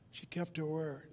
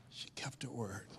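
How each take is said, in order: First: Said in the usual way. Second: Hushed whisper, much softer. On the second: Shown as a demonstration. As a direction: breathe it out as a secret. Repeated line, second take whispered.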